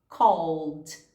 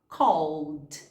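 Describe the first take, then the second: First: The L runs straight into the D sound. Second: The L runs straight into the D sound.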